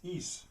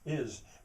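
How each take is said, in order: First: The vowel is a long 'ee' sound. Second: The vowel is a short 'ih' sound. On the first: "but he says is" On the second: "my English is"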